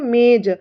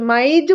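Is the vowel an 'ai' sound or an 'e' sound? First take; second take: e; ai. First: The vowel is pronounced like 'e'. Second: The vowel is pronounced like 'ai'. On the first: The speaker calls it right. "मेज बोलते हैं।" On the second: The speaker calls it wrong. "माइज नहीं बोलते अपन"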